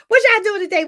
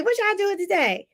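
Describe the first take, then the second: First: Excited question. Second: Said in the usual way. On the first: Real, not acted.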